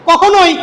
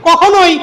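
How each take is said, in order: The two takes are said the same way.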